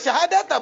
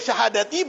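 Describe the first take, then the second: First: The word ends with an a vowel. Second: The word ends with an i vowel. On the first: The word is in the accusative case. "dan boleh juga dibaca nasab" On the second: The word is in the genitive case. "karena ataf kepada khamsin"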